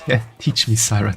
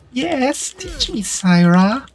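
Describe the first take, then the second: First: It is said in the speaker's normal voice. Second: It is said in a high-pitched Elmo voice.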